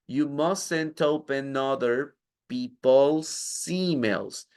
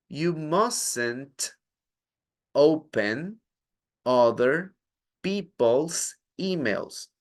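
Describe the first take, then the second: First: Final sounds join onto the following words. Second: Each word is said separately, not linked.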